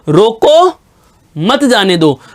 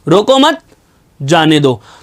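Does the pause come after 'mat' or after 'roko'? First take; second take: after roko; after mat. First: The pause comes right after 'roko'. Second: The pause comes right after 'mat'. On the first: Stop the person; do not let them go. "कि जो जा रहा है उसे रोक लीजिए, इसको जाने नहीं देना है" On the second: Do not stop the person; let them go. "रोको मत को एक साथ बोला, फिर जाने दो को एक साथ बोला, बीच में मैंने आराम लिया"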